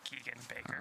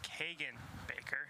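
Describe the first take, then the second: First: The first vowel of the name sounds like 'ee'. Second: The first vowel of the name sounds like 'ay'. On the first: The speaker calls it wrong. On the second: The speaker calls it right. "it is"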